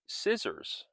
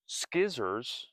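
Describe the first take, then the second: First: The word begins with a plain s sound. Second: The word begins with an sk sound. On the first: The speaker calls it right. "but scissors" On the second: The speaker calls it wrong. "Scissors are not pronounced skizzers"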